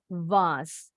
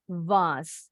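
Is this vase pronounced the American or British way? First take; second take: British; British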